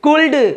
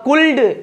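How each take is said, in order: The two takes are said the same way.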